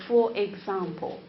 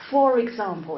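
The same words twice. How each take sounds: First: "for example" as two separate words; unlinked words. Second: "for example" linked with an r, "fo-rexample"; connected speech. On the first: Teacher showing what to avoid, words unlinked. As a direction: break between "for" and "example", no linking r. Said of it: "instead of for example". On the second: Teacher showing the linking rule, connected speech. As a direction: run "for" straight into "example", sounding the r. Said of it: "we need to know the rules". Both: Shown as a demonstration.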